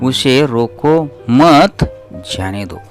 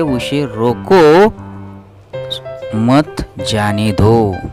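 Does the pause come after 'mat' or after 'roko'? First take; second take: after mat; after roko. First: The pause falls right after the word mat. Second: The pause falls right after the word roko. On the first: Do not stop him; let him go. "यानी कि सकारात्मक वाक्य, जाने की प्रतिक्रिया" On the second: Stop him and do not let him go. "यानी कि उसे हम रुकवाना है और उसे जाने को नहीं देना है।"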